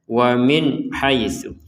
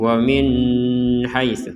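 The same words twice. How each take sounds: First: The n is short with no hum. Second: The n is held with a nasal hum. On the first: The speaker calls it right. "Jadi langsung saja" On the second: The speaker calls it wrong. "ini kan kalau dibaca dengung"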